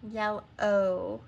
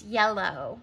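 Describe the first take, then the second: First: YELLOW split as yell, then a held O; long O. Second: Said in the usual way. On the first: Shown as a demonstration. Teacher demonstrating the end sound, YELLOW with a separated long O. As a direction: stretch the final O of YELLOW as its own syllable. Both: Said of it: "Do you hear the long O?".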